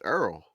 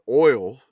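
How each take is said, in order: First: It is said in a Louisiana accent. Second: It is said in a general American accent. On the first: "my Louisiana people, we call it arrow" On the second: "we don't say the word oil"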